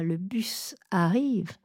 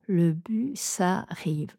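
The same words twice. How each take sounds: First: Le bus arrive avec une coupure après bus; découpage erroné. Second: Le bus arrive, le S passe sur arrive; enchaînez bus et arrive; enchaînement correct. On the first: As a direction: coupez après bus sans enchaîner. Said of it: "Je ne dis pas". (mauvaise coupure des syllabes) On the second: (bonne coupure des syllabes) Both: Shown as a demonstration.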